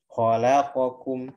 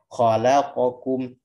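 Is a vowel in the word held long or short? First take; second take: short; short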